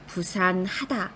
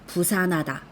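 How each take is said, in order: First: The h sound is clearly pronounced after the n. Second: The h is dropped and the n links on. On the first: The speaker calls it right. "부산하다 라고 히읗을 제대로 발음해 주셔야 되는 거죠" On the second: The speaker calls it wrong. "앞에 오는 말의 받침을 그대로 연음해서 읽어버리는 거예요. 부산하다. 이런 식으로"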